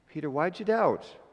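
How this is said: It sounds gentle and compassionate.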